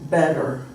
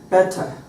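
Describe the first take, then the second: First: The middle consonant is a soft D-like tap. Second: The middle consonant is a crisp, clear T. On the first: This is how American speakers say it. "But we would say, ... it's more like a D sound" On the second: This is how British speakers say it. "they would say"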